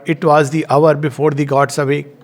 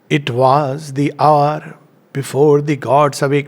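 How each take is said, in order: First: It is read flat, like plain prose. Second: It is read with strong rhythmic stress. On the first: "we can read it flat, like we read a praise, prose" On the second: "Now the sound is entering"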